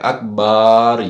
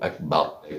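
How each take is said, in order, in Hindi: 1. 'b' के बाद वाला स्वर लंबा खींचा जाता है। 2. 'b' के बाद वाला स्वर छोटा रखा जाता है। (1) "अकबार ये भी गलत है" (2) "बा को और हमजा को नहीं खींचना बल्कि लाम को बढ़ाएं"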